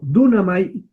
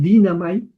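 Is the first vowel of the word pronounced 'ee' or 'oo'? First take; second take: oo; ee. First: The first vowel sounds like 'oo'. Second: The first vowel sounds like 'ee'. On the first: This is the pronunciation used in this course. "pero dunamai es yo soy capaz de" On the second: This is how the word is said in modern pronunciation. "en pronunciación moderna dirían dinamai"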